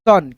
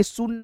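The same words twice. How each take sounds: First: सन with a short "uh" vowel, like English "sun"; short a sound. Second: सुन with an "oo" vowel; mistaken u vowel. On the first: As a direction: say सन with अ, not u. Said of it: "स आ न". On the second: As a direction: say सुन with the u sound, as a misreading. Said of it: "हम इसको पढ़ेंगे सुन नहीं". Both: Shown as a demonstration.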